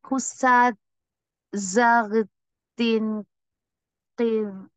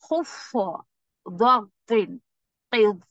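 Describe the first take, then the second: First: The letters are pronounced light and thin. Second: The letters are pronounced heavy and full-mouthed. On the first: The speaker calls it wrong. "ऐसा नहीं पढ़ा मैंने इसको" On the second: The speaker calls it right. "मैं इसको हैवी ही पढ़ रही हूँ"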